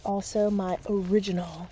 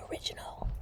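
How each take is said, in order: First: Said in the usual way. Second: Breathy whispered repeat. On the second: Shown as a demonstration. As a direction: whisper the word original.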